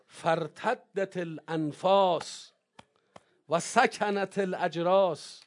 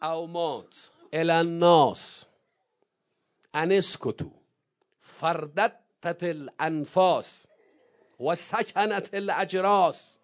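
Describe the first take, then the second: First: Slow, stretched recitation of the line repeated; drawn out. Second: Slow, stretched Arabic recitation; drawn out. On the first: Preacher repeating the Arabic line slowly for the congregation. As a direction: lean on each word slowly, letting it hang. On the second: Preacher slowly reciting Zeinab's sermon, drawn out. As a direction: stretch every word so its weight lands. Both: Shown as a demonstration.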